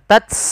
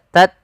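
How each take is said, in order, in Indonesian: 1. Hembusan napas kuat mengikuti t. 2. Hembusan napas ringan mengikuti t. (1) "bukan tats" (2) "tat sedikit aja"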